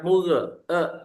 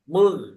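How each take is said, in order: First: An extra vowel follows the final consonant. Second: The word ends cleanly on the consonant. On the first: The speaker calls it wrong. "e-nya dibuang jangan" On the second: The speaker calls it right. "e-nya dibuang"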